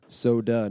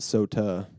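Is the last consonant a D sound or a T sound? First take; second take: D sound; T sound. First: The last consonant sounds like a soft D. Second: The last consonant sounds like a crisp T. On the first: The speaker calls it right. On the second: The speaker calls it wrong. "not so tuh"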